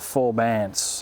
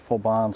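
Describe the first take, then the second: First: The name is said in an anglicized way. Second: The name is said in the local way. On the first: This is how the speaker would say it. "as I would say" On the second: This is how the locals would say it. "as they would say"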